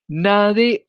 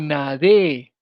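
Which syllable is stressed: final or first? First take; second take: first; final. First: The stress is on the first syllable. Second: The stress is on the final syllable. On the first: It is the present subjunctive form. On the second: It is the first-person preterite form.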